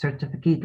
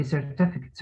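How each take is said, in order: First: "Certificate" ending in a full "-kate"; verb pronunciation. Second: "certificate" with a short, unstressed last syllable; noun stress. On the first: Teacher showing a student the verb, "Certificate" ending in "-kate". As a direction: say "Certificate" as a verb, long vowel in the last syllable. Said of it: "A certificate ده كده verb". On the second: Teacher showing a student the noun, "certificate" with a light ending. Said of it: "stress the first syllable عشان ده اسم". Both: Shown as a demonstration.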